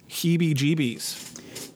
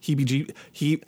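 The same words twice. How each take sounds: First: Heebie-jeebies drawn out slowly; slow careful heebie-jeebies. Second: Said in the usual way. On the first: Shown as a demonstration. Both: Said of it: "it really gives me the heebie-jeebies".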